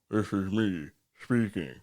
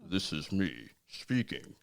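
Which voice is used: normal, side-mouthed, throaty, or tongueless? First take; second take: throaty; side-mouthed. First: Spoken with the tongue pulled back into throat. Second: Spoken out of the side of the mouth. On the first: "if I put it in my throat" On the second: "when you contort your mouth to the side"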